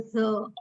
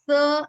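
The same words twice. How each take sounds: First: "th" a little heavier, with voice; voiced th. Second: "th" light, without voice; voiceless th. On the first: Teacher contrasts two sounds for students, voiced th. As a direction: say "th" with the vocal cords vibrating. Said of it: "a little heaviness in the voiced one". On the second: Teacher contrasts two sounds for students, voiceless th. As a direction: say "th" with the vocal cords still. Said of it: "the voiceless sounds are a little lighter". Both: Shown as a demonstration.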